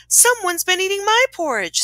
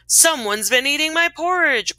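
First: High-pitched storybook mother bear; Mama Bear. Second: Lightly voiced Papa Bear, pitched up; a touch of storybook bear indignation; mild growl. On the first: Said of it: "said the Mama Bear". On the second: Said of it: "growled the Papa Bear". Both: A narrator's reading.

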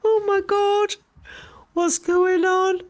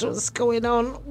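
First: Higher, slow, alarmed; rising panic, drawn out; frightened. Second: Said in the usual way. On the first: Real, not acted. Viewer gets alarmed at the moving ghost footage.

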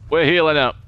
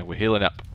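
First: We're healing up said louder; louder repeat. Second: Said in the usual way. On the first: Real, not acted. Gamer announcing heal to team, louder. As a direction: say healing up loud for emphasis. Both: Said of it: "repeat louder".

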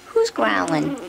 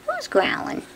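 First: Said in the usual way. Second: Very high teasing squeak. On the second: Real, not acted. Owner squeaking at the growling puppy.

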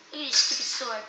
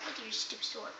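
First: Said in the usual way. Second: Soft taunt. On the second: Acted. Taunt repeated much softer.

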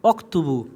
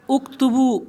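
First: "অক্তুবু" with the alif dropped, wa running into k; joined pronunciation. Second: "উকতুবু" begun with a clear short u; standalone pronunciation. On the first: Teacher shows how "and write" is joined, linked pronunciation. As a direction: open "অক্তুবু" on wa joined straight to k, no u. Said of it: "তার সাথে জড়িয়ে পড়বো, এভাবে পড়বো". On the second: Teacher gives the word for "write" by itself, standalone pronunciation. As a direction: say "উকতুবু" as a separate word, opening on u. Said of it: "এই আলিফের উচ্চারণটা হবে না". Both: Shown as a demonstration.

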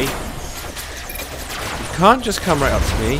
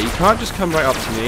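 First: Drawn out very slowly, teasing sing-song; slow mocking taunt. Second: Said in the usual way. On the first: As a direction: stretch every word to mock the enemy. Taunting enemy tank in game.

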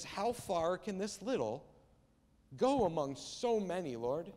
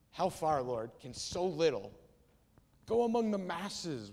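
First: Slow, wondering question with a lift at the start; inquisitive wonder. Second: Slow, heavily stressed sarcastic question; absolute sarcasm. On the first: Andrew asks Jesus how far so little can go, inquisitive wonder. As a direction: ask it in open, curious wonder. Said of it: "inquisitive sense of wonder". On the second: Andrew doubts Jesus over the small meal, absolute sarcasm. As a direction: drag it out with pointed sarcasm, punching the key words. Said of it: "He says it in absolute sarcasm". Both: Acted.

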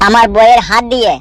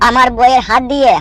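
The two takes are said the same way.

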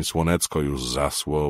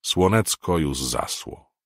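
First: Slow Podhale "Słonecko już zasło", c and s not cz and sz; highland dialect title. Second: Drawn-out mountain-folk "Słonecko już zasło"; highland dialect song title. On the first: Narrator naming the girls' funeral song in dialect. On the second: Narrator slowly saying the Podhale song title at the funeral. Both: A narrator's reading. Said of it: "mówił gwarą".

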